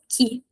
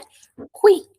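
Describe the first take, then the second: First: The word is said without a w sound. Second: The word is said with a w sound. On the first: This is how Portuguese speakers read it. The speaker calls it wrong. "Falantes de português, a gente fala isso que" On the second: This is how it is said in Italian. The speaker calls it right. "Mas no italiano, a gente pronuncia o, tá? Então é qui"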